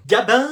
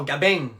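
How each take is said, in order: First: Said in the usual way. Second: Gabin with a southern final "ng", like "Gabeng"; southern pronunciation. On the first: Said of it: "Non, Gabin". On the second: Acted. New pupil correcting the name, Gabin said southern-style as "Gabeng". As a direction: say Gabin low, ringing the nasal into a hard ng. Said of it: "tu l'entends pas à son accent?".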